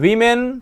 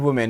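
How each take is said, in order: First: The first vowel sounds like 'wih'. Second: The first vowel sounds like 'woo'. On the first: The speaker calls it right. "इसका right answer हो जाता है वीमेन" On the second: The speaker calls it wrong. "ये वुमेन कर देते हैं लोग, ये गलत होता है"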